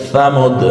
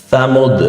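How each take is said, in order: The two takes are said the same way.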